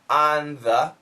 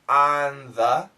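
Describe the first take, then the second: No difference in how they are said.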